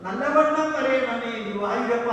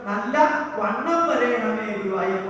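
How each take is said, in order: First: Nallavannam is said as one joined word. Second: Nallavannam is split with a break inside. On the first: It asks for things to go well. The speaker calls it right. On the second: It asks to become quite fat. The speaker calls it wrong.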